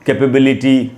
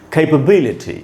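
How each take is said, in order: First: The main stress falls on another syllable. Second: The main stress falls on the third syllable. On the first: The speaker calls it wrong. "न कि capability, जैसे हम लोग बोलते हैं" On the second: The speaker calls it right. "Capability इस प्रकार से पढ़ेंगे"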